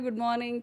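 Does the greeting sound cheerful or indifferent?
indifferent. The greeting sounds flat and indifferent. The greeting is merely a formality. "ठीक है good morning हुई है"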